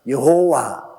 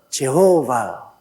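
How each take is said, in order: First: The name begins with the syllable yeo. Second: The name begins with the syllable je. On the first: This is how Koreans say the name. "한국 사람들은 여호와" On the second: This is how Westerners say the name. "그 발음을 그들은 제호바"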